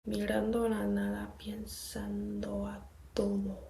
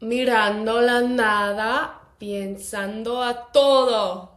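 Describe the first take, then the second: First: It is said at a quieter volume. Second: It is said at a louder volume.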